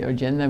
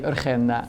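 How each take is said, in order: First: The name is pronounced with English sounds. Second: The name is pronounced with Dutch sounds. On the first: "in English we would probably say Agenda" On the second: "We say Urgenda"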